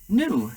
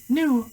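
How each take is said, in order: First: Sudden high loud shriek. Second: Even higher piercing shriek. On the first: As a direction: snap the word out high and loud. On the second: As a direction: let it crack at the very top. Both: A narrator's reading. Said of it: "shrieked Apetunia suddenly".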